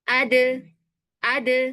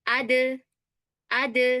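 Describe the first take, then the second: The two takes are said the same way.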